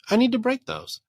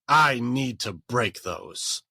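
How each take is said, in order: First: It is said gently and nicely. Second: It is said forcefully, like a warrior.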